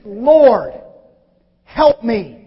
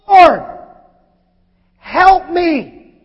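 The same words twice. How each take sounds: First: Pleading. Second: Loud, high cry for help; desperate plea. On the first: Woman's plea retold. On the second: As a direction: beg him for help. Woman kneels and pleads. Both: Acted.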